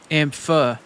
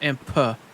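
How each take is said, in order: First: It ends with an f sound. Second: It ends with a p sound. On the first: The speaker calls it right. "Amph, not amp. ... Like teeth with an F" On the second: The speaker calls it wrong. "not amp"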